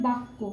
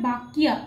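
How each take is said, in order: First: বাক্য as "bakko", double k, no y; Bengali pronunciation. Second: বাক্যা as "bak-ya", y sounded; Sanskrit pronunciation. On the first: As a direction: say বাক্য the Bengali way, "bak-ko", softly. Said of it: "তাহলে এটা কীরকম করে দাঁড়ায়". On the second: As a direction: say বাক্যা with a clear y after k. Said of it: "উচ্চারণ কীরকম হবে". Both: Shown as a demonstration.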